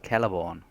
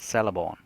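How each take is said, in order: First: The name begins with a K sound. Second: The name begins with an S sound. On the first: The speaker calls it right. "It's Celeborn" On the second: The speaker calls it wrong. "not Celeborn"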